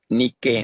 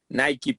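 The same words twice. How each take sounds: First: The first vowel sounds like 'ee'. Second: The first vowel sounds like 'eye'. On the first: It refers to the Greek goddess. "si re nos referimos a la diosa, pues deberíamos decir Nike" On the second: It refers to the sneaker brand. "si nos referimos a la marca, pues diríamos Nike"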